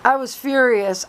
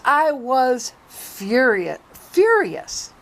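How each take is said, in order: First: Said in the usual way. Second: Slow emphatic furious. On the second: Real, not acted.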